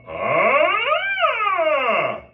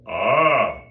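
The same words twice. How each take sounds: First: Very high, loud focused ah; thin fast stream of air; much higher, louder focused squeak tone; laser beam of air. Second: Louder airy ah without a focused core; pillow of air. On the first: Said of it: "that's a laser beam of air". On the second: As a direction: let a wide puff of air through. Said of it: "that's a pillow". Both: Shown as a demonstration.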